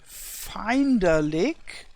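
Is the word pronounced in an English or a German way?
English. It is pronounced the English way. "in English you would pronounce it like"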